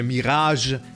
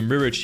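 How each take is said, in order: First: The word is pronounced in a French manner. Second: The word is pronounced in an English manner.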